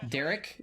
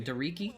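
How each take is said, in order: First: "Derek" in two syllables, ending in a hard k; common-name pronunciation. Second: "Dereki" in three syllables, ending in ee; unsure pronunciation. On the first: Streamer guessing a viewer's name, "Derek" ending on k. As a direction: try "Derek" as a question, no final ee. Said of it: "Is it just a funny pronunciation". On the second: Streamer guessing a viewer's name, "Dereki" with ee ending. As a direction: try "Dereki" as a question, with a final ee. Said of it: "don't even know how to say". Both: Real, not acted.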